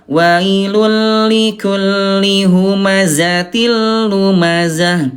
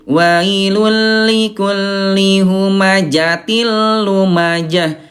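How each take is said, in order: First: The consonant is a z sound. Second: The consonant is a j sound. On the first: The speaker calls it right. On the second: The speaker calls it wrong.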